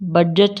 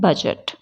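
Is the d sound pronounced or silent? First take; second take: pronounced; silent. First: The d sound is clearly pronounced. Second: The d sound is left silent. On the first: The speaker calls it wrong. "बजट नहीं बोलते" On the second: The speaker calls it right. "ये डी silent रह के हम क्या बोलते हैं"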